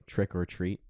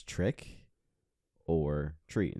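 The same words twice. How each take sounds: First: Said in the usual way. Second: "trick or treat" said slowly, a pause before "or treat"; "trick" drawn out, then a pause, then "or treat" dropping low; slow choice. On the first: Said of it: "it's turned into a statement". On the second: Shown as a demonstration. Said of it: "There's always a question".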